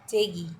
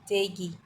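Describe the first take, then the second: No difference in how they are said.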